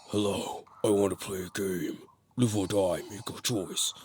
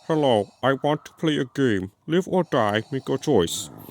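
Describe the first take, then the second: First: It imitates the original Jigsaw's normal voice. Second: It imitates the copycat killer's lame Jigsaw voice.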